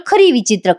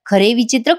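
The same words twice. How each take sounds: First: खरी विचित्र with खरी ending in i, falling; mixed-up words. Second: खरे विचित्र with खरे ending in e, rising at विचित्र; muttering खरे विचित्र, rising tune; mixed-up words. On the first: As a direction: stress खरी, let विचित्र fall. (खरी वर जोर देत उतरता सूर) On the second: (खरे विचित्र असं चढत्या सुरात) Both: Shown as a demonstration. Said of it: "हे काय बोलतोय मी?".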